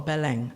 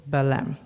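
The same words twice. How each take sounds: First: Belém said the Brazilian Portuguese way; Brazilian pronunciation. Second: Said in the usual way. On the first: Shown as a demonstration. Speaker correcting the city's name for the audience, Belém in Brazilian pronunciation. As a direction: say Belém as Brazilians do, with a nasal ending. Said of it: "pronounced in the Brazilian way". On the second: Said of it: "as it's supposed to be pronounced".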